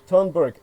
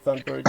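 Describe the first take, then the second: First: The name is pronounced with a Swedish sound. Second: The name is pronounced with an English sound. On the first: The speaker calls it right. "the correct pronunciation in her native language" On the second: The speaker calls it wrong. "I've been Anglo corrupting it"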